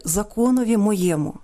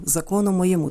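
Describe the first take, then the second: First: "моєму" stressed on the middle syllable є; older stress pattern. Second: "моєму" stressed on the final у; shifted stress. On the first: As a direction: quote "законові моєму" with the stress on є in "моєму". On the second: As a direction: quote "закону моєму" moving the stress to the end of "моєму". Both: Shown as a demonstration. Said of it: "Наголоси теж суваються".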